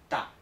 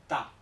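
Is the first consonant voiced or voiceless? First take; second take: voiceless; voiceless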